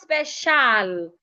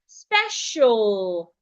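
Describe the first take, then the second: First: The last syllable has a full vowel. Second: The last syllable has a reduced schwa vowel. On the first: The speaker calls it wrong. "It's not special" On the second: The speaker calls it right. "The letter A before the L again makes the sure"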